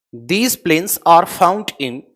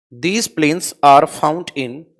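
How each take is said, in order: The two takes are said the same way.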